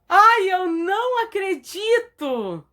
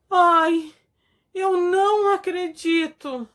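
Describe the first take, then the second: First: The voice is bright, surprised and joyful. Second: The voice is trembling, shocked and sad. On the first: The news is wonderful and welcome. "Com surpresa e alegria. ... a voz fica brilhante" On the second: The news is terrible and hard to accept. "Com espanto e tristeza. ... A voz fica trêmula"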